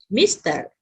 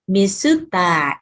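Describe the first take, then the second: First: It is said with English sounds ending in r. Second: It is said as Japanese syllables ending in long a.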